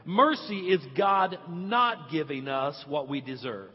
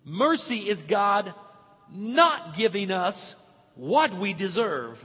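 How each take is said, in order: First: Said in the usual way. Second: Slow and louder, not pressed hard; stress on not. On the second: Shown as a demonstration. Pastor teaching the church, stressing not slowly. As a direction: spell it out, weight on not. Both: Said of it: "the emphasis is on not".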